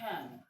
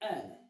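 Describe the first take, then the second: First: An h sound comes before the vowel. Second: The word begins directly with the vowel. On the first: The speaker calls it wrong. "That is why you tend to say han" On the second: The speaker calls it right. "I'm saying an"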